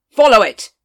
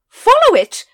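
First: Curt order. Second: Sudden high, very loud command; shouted order. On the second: Lady Ramkin urging the watch after the dragon, shouting. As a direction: yell it out to chase the dragon. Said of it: "shouted Lady Ramkin". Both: Acted.

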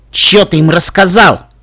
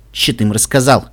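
First: «Чё» hit hard, slow and loud; with insistence. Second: Said in the usual way. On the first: Acted. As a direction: press each word of «Чё ты им рассказал». (с нажимом, медленно и громко на «Чё») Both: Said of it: "сказал Каламити с нажимом".

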